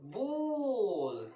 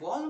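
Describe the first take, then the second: First: The vowel is drawn out long. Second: The vowel is short and clipped. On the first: The speaker calls it right. "এইটা একটু আমরা টেনে উচ্চারণ করব" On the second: The speaker calls it wrong. "আমরা যে বল বলি না"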